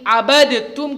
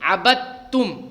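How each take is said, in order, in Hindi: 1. d, t से पहले अलग से बोला जाता है। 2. d दोहरे t की ध्वनि में मिल जाता है। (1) "अबद तुम की जगह" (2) "हम पढ़ेंगे अबद तुम"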